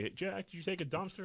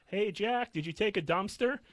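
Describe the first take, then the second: First: High, sing-song mock old lady asking again; chirpy old lady. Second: High, sing-song mock old lady asking Jack; chirpy old lady. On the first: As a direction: repeat the chirpy old-visitor question. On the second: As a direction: chirp the question like a nosy old visitor. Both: Old lady visiting each day.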